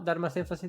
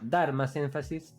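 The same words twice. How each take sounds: First: The word dar is said flatly, without emphasis. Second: The word dar is said with strong emphasis.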